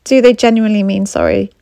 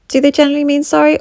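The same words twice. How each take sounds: First: Said in the usual way. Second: Higher and faster, pressing on sorry; pointed repeat. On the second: Shown as a demonstration. Coach asking viewers to doubt the apology, pressing harder. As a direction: push the question harder.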